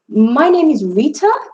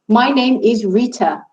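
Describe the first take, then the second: First: The pitch rises at the end. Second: The pitch stays level to the end. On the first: It sounds like a question. The speaker calls it wrong. "The second time I raised my voice at the end" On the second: It is stated as a fact. The speaker calls it right. "the first time I said it with an even tone"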